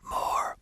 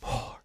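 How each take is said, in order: First: A projected whisper with constriction in the throat. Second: A plain, airy whisper without any constriction. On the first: "There's a little bit of upper constricted resistance" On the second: "It's not just more"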